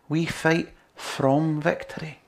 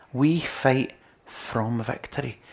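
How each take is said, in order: First: "fight" lifted slowly; stress on fight. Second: "from" pressed slowly; stress on from. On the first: Preacher repeating the line, slow with "fight" stressed. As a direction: lean on "fight", slow and deliberate. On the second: Preacher to congregation, slow with "from" stressed. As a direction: lean on "from", slow and deliberate. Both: Shown as a demonstration.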